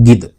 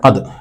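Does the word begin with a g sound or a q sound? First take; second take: g sound; q sound. First: It begins with a g sound. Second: It begins with a deep q sound. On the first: This is the everyday spoken form. "സംസാരത്തിലേക്ക് വരുമ്പോൾ ഗിദ് എന്നാണ് പറയുക" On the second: This is the formal standard form. "അത് എന്നതാണ് ഫുസ്ഹയിൽ"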